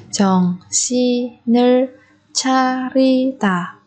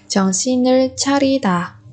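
First: "정신을 차리다" slowly, syllable by syllable; drawn-out teaching model of "정신을 차리다". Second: Said in the usual way. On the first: Shown as a demonstration. Teacher repeats phrase syllable by syllable.

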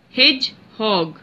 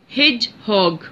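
First: Hedgehog said slowly as hedge-hog, two beats; slow, syllable by syllable. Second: Said in the usual way. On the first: Shown as a demonstration. Teacher to students counting syllables, spaced slowly. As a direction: tap out each syllable of Hedgehog. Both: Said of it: "Two syllable word".

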